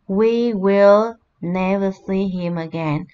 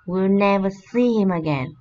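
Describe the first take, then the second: First: We and will are said as two full words. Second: We and will merge into one short syllable.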